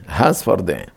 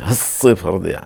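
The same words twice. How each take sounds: First: הספרדיים with a single s, softly; הספרדיים lower and softer, s undoubled; no dagesh. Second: הספרדיה with a long doubled s, "has-se-far"; הספרדיה with geminated hissing s; with dagesh. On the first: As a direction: say הספרדיים without doubling the s. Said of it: "אין דגש בשדה". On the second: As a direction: hold the s in הספרדיה. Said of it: "עם דגש". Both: Shown as a demonstration.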